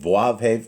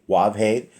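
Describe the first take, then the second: First: The letter name begins with a V sound. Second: The letter name begins with a W sound.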